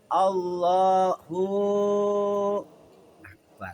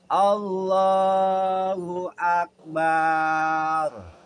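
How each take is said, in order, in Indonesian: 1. Bunyi w tanpa vokal menyambungkan kata-kata. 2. A terakhir pada Akbar dipanjangkan. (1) "Atau di wawunya disukunkan, gak baris fathah" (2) "Kemudian di belakangnya ditambahin pakai ba"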